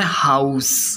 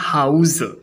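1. यह नाउन वाले उच्चारण से बोला गया है। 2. यह वर्ब वाले उच्चारण से बोला गया है। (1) "जब हाउस का प्रयोग नाउन के रूप में किया जाता है तो इसका उच्चारण होता है" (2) "जब हाउस का प्रयोग वर्ब के रूप में किया जाता है तो इसका उच्चारण होता है"

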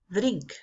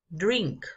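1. La D se hace con la lengua en los dientes. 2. La D se hace con la lengua en el paladar. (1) "La D en español la pronunciamos tocando los dientes" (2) "en inglés la lengua debe ir hacia el paladar"

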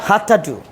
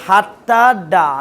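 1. শেষ শব্দটি 'oo' স্বরধ্বনিতে শেষ হয়। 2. শেষ শব্দটি 'ah' স্বরধ্বনিতে শেষ হয়। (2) "না ডুকে আবার ডা বলা যাবে না"

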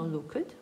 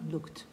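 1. Закінчення -ed вимовляється як окремий склад. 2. Закінчення -ed не додає окремого складу. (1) "«е» ми не вимовляємо. Ми не говоримо «looked»" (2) "а говоримо «looked»"

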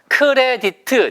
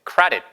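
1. 이 단어는 네 개의 음절로 따로 발음합니다. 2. 이 단어는 한 호흡에, 두 음절로 발음합니다. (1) "네 글자 아니고요" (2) "한 호흡이에요"

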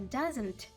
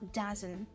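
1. Фінальний звук T чітко вимовляється. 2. Фінальний звук T випадає. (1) "Не doesn't" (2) "а doesn't"

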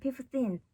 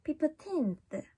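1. 음절들이 뚜렷한 강세 없이 고르게 발음돼요. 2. 강세가 두 번째 음절에 와요. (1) "이렇게 쭉 가는 게 아니라" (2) "이렇게 teen의 강세를 주고"

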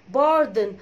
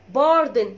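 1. الحركة الثانية مختزلة وضعيفة. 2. الحركة الثانية مختزلة وضعيفة.

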